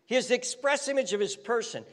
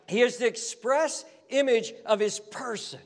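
First: Faster repeat of the phrase; quicker repeat. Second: Said in the usual way. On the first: Shown as a demonstration. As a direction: run through it briskly the second time.

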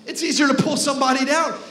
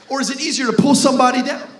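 First: Easier stressed, tune falling to a firm close; falling answer. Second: Easier asked with a rising question tune. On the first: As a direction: settle it as the answer. Answers own question. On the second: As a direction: toss it to the crowd as a question. Question to the crowd. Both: Acted.

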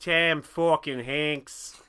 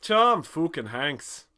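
First: Very slow, louder, FUCKING as "fawkin"; altered pronunciation. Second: Slow, loud mock Irish, "fookin"; shitty Irish accent. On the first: Pretend. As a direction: stretch fucking into "fawkin", Hanks into "Henks". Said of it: "P H A W K". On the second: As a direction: ham up a bad Irish brogue, higher. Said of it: "in a shitty Irish accent".

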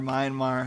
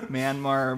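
First: Myanmar with a first syllable like "mine"; alternate pronunciation. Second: Myanmar with a first syllable like "man"; alternate pronunciation. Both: Shown as a demonstration. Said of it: "however you wanna say it".

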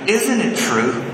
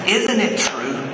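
The two takes are said the same way.

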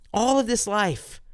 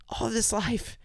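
First: Emphatic plea. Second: Softer echo. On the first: Impassioned prayer peak. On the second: Repeated softer in prayer. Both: Acted.

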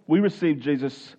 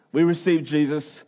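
Both takes have the same delivery.

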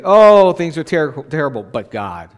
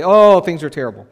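First: Hopeful lament. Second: Hopeless complaint. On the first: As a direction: cry out, then turn to hope. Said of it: "It's another thing to say". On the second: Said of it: "It's one thing to say". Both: Shown as a demonstration.

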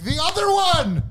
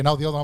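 First: High, stretched mock disbelief; shocked outcry. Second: Said in the usual way. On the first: Patient retells learning of second cut, shocked outcry. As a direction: re-enact alarmed surprise, pitch leaping. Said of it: "I'm like". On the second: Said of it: "he's like".

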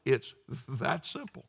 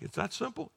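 First: Said in the usual way. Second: It's that simple asked with a rising, unsure tune; doubtful question. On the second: Retold or imitated. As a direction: voice the listener's disbelief.

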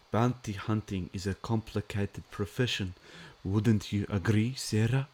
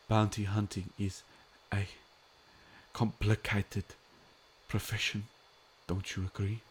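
First: Put-on Werner Herzog accent. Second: Werner Herzog impression. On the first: Host asking chat viewer Sarah in a German accent. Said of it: "Am I using my Werner Herzog accent?". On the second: Fan quoting Herzog's line to stream viewers, light German accent. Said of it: "what does he say?".

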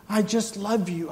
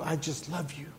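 First: Higher, louder cry of love; soaring declaration of love; fervent. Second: Soft, hushed return; quiet and tender. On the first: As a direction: lift it up with passion. Building God's words. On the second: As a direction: drop back to a gentle hush. God's words falling back. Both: Acted.

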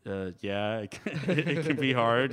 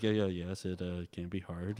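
First: Imitating Ben. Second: Imitating Ben quietly. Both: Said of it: "this is a terrible impression of you".

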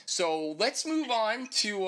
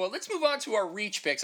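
First: Slow and winded; out of breath. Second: Said in the usual way. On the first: Real, not acted. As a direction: catch your breath between words. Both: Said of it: "I'm winded right now".

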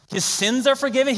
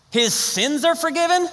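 First: Incredulous. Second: Higher and slower, voice climbing in disbelief; stretched-out, astonished question, higher than the first take; stronger incredulity. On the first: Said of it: "He wasn't asking for that". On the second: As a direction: push the disbelief further on the repeat. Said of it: "Do you see this?". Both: Shown as a demonstration.

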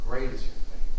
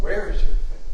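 First: GREAT said lower and falling; Great is your faith brought down and closed; stress on GREAT. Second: WHERE lifted and rising; Where is your faith asked with a lift on Where; stress on WHERE. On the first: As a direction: answer that settles down on Great. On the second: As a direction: question hanging on Where. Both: Shown as a demonstration.

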